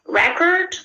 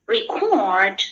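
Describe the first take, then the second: First: Record as a noun, stressed on the first syllable. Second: Record as a verb, stressed on the second syllable. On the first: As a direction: say record with the beat on REC. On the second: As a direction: say record with the beat on CORD. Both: Shown as a demonstration. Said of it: "the word is stressed in other syllable".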